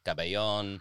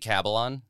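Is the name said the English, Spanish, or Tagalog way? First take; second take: Spanish; English. First: It is said with a Spanish pronunciation. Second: It is said the English way, rhyming with Babylon. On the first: "being conquered by the Spanish and it's like Cabellon" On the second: "I say Cabellon. Entirely phonetic. Rhymes with Babylon"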